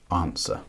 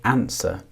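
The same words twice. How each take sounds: First: It is said in a southern English accent. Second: It is said in the speaker's own accent.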